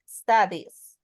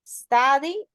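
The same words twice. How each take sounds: First: "studies" said as "study" with just an S added; final S on "studies". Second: Said in the usual way. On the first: Shown as a demonstration. Teacher shows the class the pronunciation, "studies" with a clear final S. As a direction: keep "studies" unchanged from "study", sounding the final S. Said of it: "como si le hubiera puesto una S". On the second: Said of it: "cuál es la pronunciación? No cambia".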